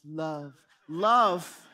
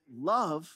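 First: Put-on film wedding voice, swelling louder; Princess Bride voice. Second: Said in the usual way. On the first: Shown as a demonstration. Pastor imitating the film at a wedding, Princess Bride voice. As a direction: intone it, then boom the second one. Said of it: "say it in my Princess Bride voice". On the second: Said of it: "I try to say it in my Princess Bride voice".

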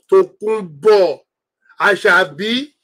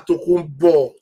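First: Drawn-out call. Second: Said in the usual way. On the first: Real, not acted. Calling out to a viewer.

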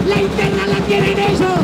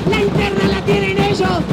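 Both takes have the same delivery.

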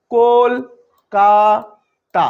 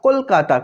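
First: "Kolkata" very slowly in three separate beats; syllable by syllable. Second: Said in the usual way. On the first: Shown as a demonstration. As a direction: stretch and split "Kolkata" into কল, কা, তা. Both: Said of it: "কতবারে উচ্চারিত হচ্ছে".

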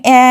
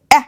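First: অ্যা held long as a stretched "aah"; drawn-out wrong vowel. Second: অ্যা as a quick, cut-off "a"; very short vowel. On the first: Teacher showing students how not to say it, অ্যা drawn out long. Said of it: "এরকম না". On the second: Teacher showing students the correct sound, অ্যা very short. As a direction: say অ্যা in one tiny burst. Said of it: "একদম short হবে". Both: Shown as a demonstration.

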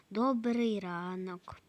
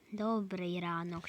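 First: Said in the usual way. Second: Whispered. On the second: Pretend. Shopper greets the cashier again, whispered. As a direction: breathe "добрий ранок" with no voice.

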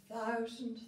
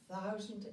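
The two takes are said the same way.

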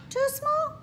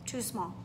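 First: Much higher, asking; rising question. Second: Low answer. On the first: Teacher asks the children if the studio fits, high question. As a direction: wonder if it fits. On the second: Teacher answers that the studio is too small, low and soft. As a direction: lower and softer, settled. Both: Acted.

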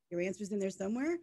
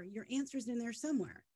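First: Mock-questioning, rising at the end; incredulous echo. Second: Mildly placating, imitated; retold placating reply. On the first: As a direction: repeat it as a disbelieving question. Echoes the reply in disbelief. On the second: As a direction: quote someone gently placating.

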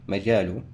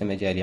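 First: مجال said majalu, ending on a short u; مجال with the damma, majalu, not majali; correct vowel ending. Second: مجال said majali, ending on a short i; مجال with a kasra, majali, as the wrong reading; wrong vowel ending. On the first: Tutor showing the right ending: مجال said majalu. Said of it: "بالضم، حاول قدر الإمكان تصحح". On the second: Tutor showing the mistake to avoid: مجال said majali. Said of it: "وليس مجال عملك". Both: Shown as a demonstration.

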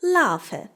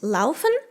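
First: «laufe» with the final n dropped; shortened Hessian ending. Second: Said in the usual way. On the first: Shown as a demonstration. Teacher shows Hessian verb endings, «laufe» without the n. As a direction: end «laufe» on an open e. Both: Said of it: "люблять скорочувати закінчення дієслів".

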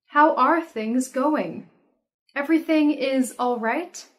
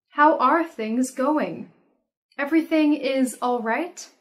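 No difference in how they are said.

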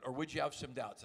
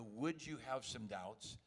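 First: Said in the usual way. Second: Would you have some doubts, drawn out slowly and softly; slow, drawn-out add-on. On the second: Shown as a demonstration. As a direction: let it trail in slow and low. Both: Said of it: "And I add the".

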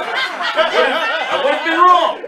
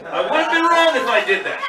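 First: Drawn out very slowly through laughter; slow laughing higher wail. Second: Said in the usual way. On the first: Real, not acted. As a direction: stretch it out, cracking up. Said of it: "comic overjoyed host". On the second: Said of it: "repeat of line 31".

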